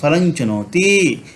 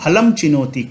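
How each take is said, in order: First: The first word ends with an ny sound. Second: The first word ends with an m sound. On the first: The speaker calls it right. "हम पढ़ेंगे फलं चुनोती" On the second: The speaker calls it wrong. "कभी नहीं पढ़ेंगे"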